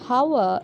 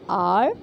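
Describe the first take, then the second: First: The word begins with an h sound. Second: The word begins with a vowel sound. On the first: The speaker calls it wrong. "It's not hour" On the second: The speaker calls it right. "the letter H is silent in those two words"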